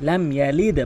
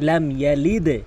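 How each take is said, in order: Both takes have the same delivery.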